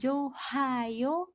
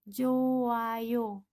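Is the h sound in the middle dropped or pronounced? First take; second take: pronounced; dropped. First: An h sound is heard in the middle. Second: No h sound is heard in the middle. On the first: The speaker calls it wrong. "maka dibacanya bukan johayo" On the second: The speaker calls it right. "seakan-akan hiatnya ini hilang"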